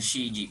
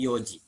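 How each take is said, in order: First: The word begins with the syllable shi. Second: The word begins with the syllable yo. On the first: The speaker calls it wrong. "jangan shiji" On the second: The speaker calls it right. "tapi yoji"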